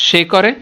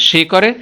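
No difference in how they are said.

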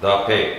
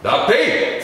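First: It is said flatly, without heat. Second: It is said loudly, with heated energy.

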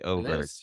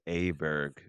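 First: The name begins with an 'o' vowel. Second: The name begins with an 'a' vowel. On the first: The speaker calls it right. "It's actually Oberg" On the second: The speaker calls it wrong. "I had pronounced Aberg's name as Aberg, and it's incorrect"

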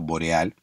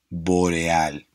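First: The word is said quickly and clipped short. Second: The word is said slowly and drawn out. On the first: The speaker calls it wrong. "si la decimos rápido" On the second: The speaker calls it right. "alargar la palabra, hacerla durar más en el tiempo"

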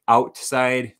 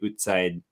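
First: It has the speaker's own unraised vowel. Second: It has the raised Canadian vowel.

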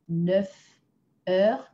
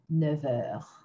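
First: Neuf keeps its F sound before heures. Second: Neuf links into heures with a V sound. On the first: The speaker calls it wrong. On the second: The speaker calls it right.

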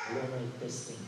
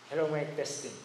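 First: The voice has more body and sounds fuller. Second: The voice has boosted highs and sounds airy. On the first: "Palagumin natin yung boses ko. ... Lumagong" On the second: "tinaas ko ng taas yung high"

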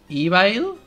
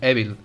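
First: The word is read with English vowel sounds. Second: The word is read with Spanish vowel sounds. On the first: "But in English it's evil?" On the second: "you read in Spanish evil"

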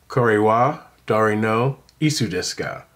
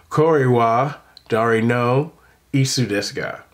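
No difference in how they are said.

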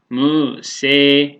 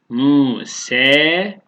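First: The final vowel is tilted fully toward e. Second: The final vowel sits midway between a and e. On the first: "imale-i kübra" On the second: "şu beyne, yani buradaki fete yakın"

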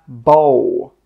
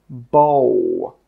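The two takes are said the same way.

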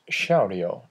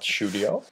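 First: The first syllable sounds like the word shout. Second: The first syllable does not sound like shout. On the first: The speaker calls it right. "pronounced Shoudio, Shouting audio, that's where it comes from" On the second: The speaker calls it wrong. "not Shoudio"

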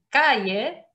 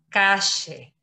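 First: The ll is a soft y sound. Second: The ll is a strong Argentine sh sound.

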